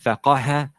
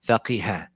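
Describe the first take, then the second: First: The vowel after the q is a. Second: The vowel after the q is i. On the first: "or it can have a fatha" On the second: "or can have a kasra"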